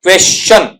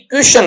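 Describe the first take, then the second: First: क्वेश्चन as kwestʃən, with a ch sound; teacher giving the correct क्वेश्चन; correct pronunciation. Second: क्वेश्चन said kjuʃən, with a sh sound; teacher showing the common क्वेश्चन mistake; wrong pronunciation. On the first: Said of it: "क्या हो जाएगा आपका". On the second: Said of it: "क्वेश्चन नहीं होता". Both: Shown as a demonstration.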